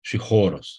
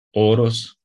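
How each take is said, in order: First: Horos begun with a breathy H; with aspiration. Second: Oros begun on a bare vowel, no H; no aspiration. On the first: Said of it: "ăsta e munte". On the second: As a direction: say Oros without any breath before the O. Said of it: "Ăsta e graniță". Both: Shown as a demonstration.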